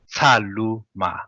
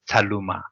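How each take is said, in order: First: The syllables are said slowly and separately. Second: The syllables are run together quickly.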